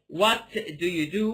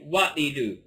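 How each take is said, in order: First: The t in 'what' is fully pronounced. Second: The t in 'what' is strongly reduced. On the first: "So instead of saying" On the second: "I reduce this T a lot"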